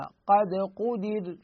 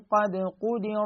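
First: The word ends in a stop with a light r. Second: The word runs on with a heavy r. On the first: The reader stops at this word. "في حال الوقف راح تصبح الراء ساكنة، وقبل الراء الساكنة أكو حركة كسر، فإذا الراء ساكنة مسبوقة بكسر حكم الترقيق" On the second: The reader continues into the next word. "إذا اتصلنا ليش نفخم؟ ... لأنه الراء هنا مفتوحة"

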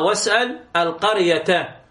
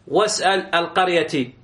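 First: The last word ends with an 'a' vowel. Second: The last word ends with an 'i' vowel. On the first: The word stands in the accusative as the object. The speaker calls it right. "فقلنا واسأل القرية" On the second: The word stands in the genitive as a possessor. The speaker calls it wrong. "وليس واسأل القرية"

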